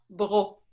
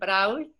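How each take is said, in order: First: The name ends on a plain O sound. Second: The written consonants after the vowel are sounded. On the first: The speaker calls it right. "pero es Bro, con un O. Hay muchas letras que no cuentan" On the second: The speaker calls it wrong. "hay muchas personas que dicen Brault"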